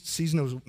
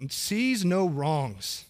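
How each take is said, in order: First: Said in the usual way. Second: Sees no wrongs drawn out very slowly, each word weighted; slow emphatic repeat. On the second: Shown as a demonstration. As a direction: lean on sees no wrongs and stretch it.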